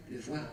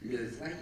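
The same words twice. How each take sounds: The two takes are said the same way.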